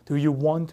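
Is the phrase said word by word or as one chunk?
one chunk. The words flow together as one rhythmic chunk. The speaker calls it right. "이렇게 리듬을 그대로 갖고 가서"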